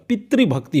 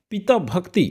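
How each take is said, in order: First: पितृभक्ति with "tri" in place of "taa"; correct form demonstrated. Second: पिता भक्ति with open "pitaa", left rising; wrong form demonstrated. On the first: Teacher gives students the correction, correct form demonstrated. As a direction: say पितृभक्ति as pi-tri-bhak-ti, falling. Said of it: "पितृभक्ति होता है". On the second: Teacher presents the form to be rejected, wrong form demonstrated. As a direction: say पिता भक्ति as pi-taa bhak-ti. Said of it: "पिता भक्ति नहीं होता". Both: Shown as a demonstration.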